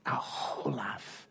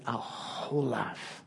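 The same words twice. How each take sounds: First: Whispered repeat. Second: Said in the usual way. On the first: Retold or imitated. Dad's quote repeated, whispered.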